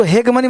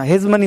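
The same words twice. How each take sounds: First: हेगमनी with a hard g, the wrong way; wrong reading. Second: हेजमनी with a z sound, not a g; correct reading. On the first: Teacher warns students of the wrong reading. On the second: Teacher gives students the right reading. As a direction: say हेजमनी as hez-mani. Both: Shown as a demonstration. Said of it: "इसको हेगमनी मत पढ़ना".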